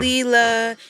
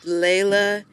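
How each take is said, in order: First: The first vowel sounds like 'ee' in 'see'. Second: The first vowel sounds like 'ay' in 'day'. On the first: The speaker calls it wrong. "It's not Leela" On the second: The speaker calls it right. "It's Layla Day"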